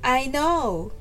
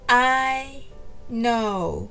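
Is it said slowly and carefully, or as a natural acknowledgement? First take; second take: acknowledging; slowly. First: It is said naturally, as an acknowledgement. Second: It is said slowly and carefully. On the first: "そうなんですね。わかりました。という気持ちを込めて" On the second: "はじめはゆっくりです。"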